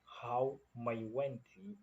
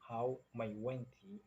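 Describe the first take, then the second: First: How mai wenti drawn out slowly, leaning on how; slow teacher demo of how mai wenti; slow model phrase. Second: Said in the usual way. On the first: Shown as a demonstration. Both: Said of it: "If you say".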